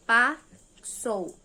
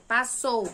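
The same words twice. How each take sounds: First: "Passou" broken in two, pause after "Pa"; split into syllables. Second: Said in the usual way. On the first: Shown as a demonstration. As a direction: say "Passou" syllable by syllable, first one loud. ("Passou" separado em sílabas, com pausa no meio) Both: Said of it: "Separei ela com quantas sílabas?".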